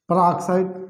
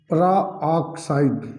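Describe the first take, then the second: First: Said in the usual way. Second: Peroxide very slow, in separated syllables; drawn-out term. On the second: Shown as a demonstration. Teacher dictating the term to students, slowly drawn out. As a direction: break peroxide into long parts.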